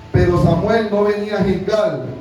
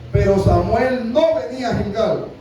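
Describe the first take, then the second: Both takes have the same delivery.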